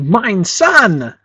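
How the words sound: The stress is on 'sun'. The absurd part is claiming to own the sun. "we might lay the emphasis on the word son"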